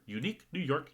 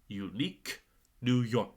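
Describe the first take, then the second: First: It is said quickly, words running together. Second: It is said at a moderate, careful pace.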